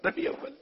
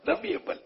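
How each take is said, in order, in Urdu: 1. درمیانی حصہ 'ul' چھوڑ دیا جاتا ہے۔ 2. درمیانی حصہ 'ul' چھوڑ دیا جاتا ہے۔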